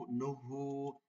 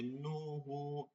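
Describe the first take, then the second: First: নুহু with নু short and moving straight on to হু; correct quick vowel. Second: নুহু with the নু stretched long and slow; wrong drawn-out vowel. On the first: Teacher showing students the right short নুহু. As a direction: pass quickly over নু. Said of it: "হুতে সময় নেবেন গিয়ে". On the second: Teacher showing students the mistake of stretching নুহু. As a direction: linger on নু the wrong way. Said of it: "নুতে সময় নিতে পারবেন না". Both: Shown as a demonstration.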